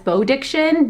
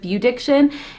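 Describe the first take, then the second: First: The first syllable sounds like 'bow'. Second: The first syllable sounds like 'bew'. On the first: The speaker calls it wrong. "a lot of people were pronouncing it as Bowdiction" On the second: The speaker calls it right. "instead of Bewdiction"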